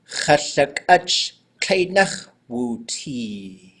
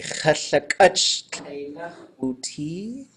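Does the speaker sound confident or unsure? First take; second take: confident; unsure. First: It is said plainly and confidently. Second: It is said hesitantly, sounding unsure.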